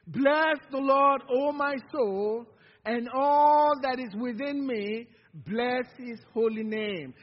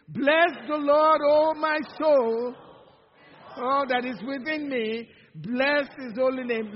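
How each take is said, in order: First: Slow, louder call-and-response reading; congregational recitation. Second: Louder, slow and fervent on the opening; excited recitation. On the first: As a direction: lead the room through the verse, slowly. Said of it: "Would you say that with me". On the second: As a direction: say it like you really mean it. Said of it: "like you really mean it". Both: Shown as a demonstration.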